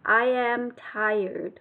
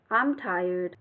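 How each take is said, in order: First: I am is said as two full words. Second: I am is shortened into one syllable. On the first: "Hoặc là I am tired" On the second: "mình có thể nói tắt lại thành là I'm"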